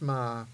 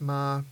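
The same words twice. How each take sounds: First: The pitch stays low. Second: The pitch stays level in the middle. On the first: "the low tone is ma" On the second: "The mid tone is ma"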